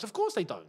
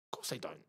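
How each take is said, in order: First: Said in the usual way. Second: The repeat breathed out in a whisper; whispered aside. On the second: Real, not acted. Streamer whispers his point again to the chat, whispered. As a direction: drop to a knowing whisper.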